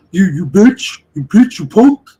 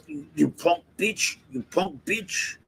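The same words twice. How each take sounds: First: Higher and much louder, hammed-up yell; a loud mock impression of someone cursing people out; mock yelling insults. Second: Softer, lightly voiced replay of the insults; a hushed, understated echo of the angry guy; muttered retake. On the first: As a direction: bellow the insults like the angry guy. Imitating the guy's insults. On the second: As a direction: say the insults again quietly, half to yourself. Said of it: "one more time".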